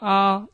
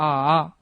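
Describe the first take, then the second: First: The vowel is said in the first tone. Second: The vowel is said in the third tone. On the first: "일성으로 가면요" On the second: "삼성으로 가면"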